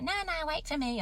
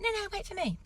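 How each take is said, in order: First: High, mock-whiny husband voice; husband calling after wife on the run, high mock whine; husband begging. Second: Very high mock whine; husband whining after wife, pitched very high; husband begging. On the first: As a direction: imitate him pleading her to wait. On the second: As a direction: ham up his pleading even more. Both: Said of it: "He's like".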